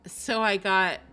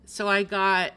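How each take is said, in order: Both takes have the same delivery.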